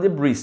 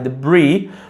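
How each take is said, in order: First: The final S sound is pronounced. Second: The final S sound is silent. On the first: The speaker calls it wrong. "Muita gente fala debris, tá errado" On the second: The speaker calls it right. "É debris"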